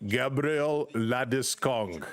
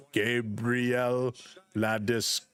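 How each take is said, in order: First: Mock pronunciation read of Gabriel Landeskog, a touch slow; imitating the name recording. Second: "Gabriel" and "Landeskog." drawn out slowly with a pause between, lower; slowed-down name pronunciation. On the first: Streamer mimicking the Olympic app name pronunciation, slow. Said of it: "He's like". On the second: Retold or imitated. Streamer imitating the app's slow syllable-by-syllable name read. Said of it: "then they slow it down to pronounce all the syllables".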